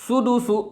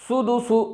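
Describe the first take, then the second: The two takes are said the same way.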